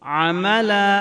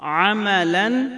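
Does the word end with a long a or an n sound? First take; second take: long a; n sound. First: The word ends with a long a sound. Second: The word ends with an n sound. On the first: The reader stops on this word. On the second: The reading continues past this word.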